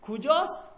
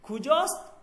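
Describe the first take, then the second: First: It is said as one contracted word. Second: It is said as one contracted word.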